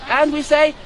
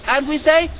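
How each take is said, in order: The two takes are said the same way.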